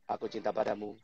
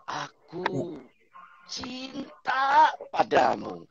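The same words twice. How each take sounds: First: It is said in a flat, robotic monotone. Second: It is said with lively, expressive intonation. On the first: The words sound mechanical and unfelt. The speaker calls it wrong. "Anda ini robot apa manusia sebetulnya?" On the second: The words sound heartfelt. The speaker calls it right. "Intonasinya tiga puluh delapan persen"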